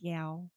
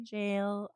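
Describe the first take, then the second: First: The word begins with a hard g sound. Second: The word begins with a j sound. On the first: The speaker calls it wrong. "I like saying gal. It's fun" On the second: The speaker calls it right. "I recognize it's supposed to be jail"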